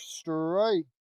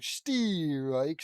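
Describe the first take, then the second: First: "strike" said normally, one quick syllable; a plain, clipped "strike". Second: "steerike" drawn out, an extra "ee" before the r, slowly, like an umpire; stretched steerike. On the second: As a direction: call it "steerike" the baseball way, stretched. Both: Shown as a demonstration. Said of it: "or wait, steerike".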